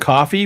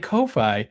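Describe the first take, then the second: First: It sounds just like the word coffee. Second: It sounds like koh-fye, matching the spelling. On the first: This is the official pronunciation. "it is pronounced coffee" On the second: It lets listeners find the page by its spelling. "So I always say Ko-Fi"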